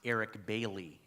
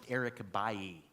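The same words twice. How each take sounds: First: The name is said in an English way. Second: The name is said in a French way. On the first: The speaker calls it wrong. "as you might pronounce it" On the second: The speaker calls it right. "his name is pronounced"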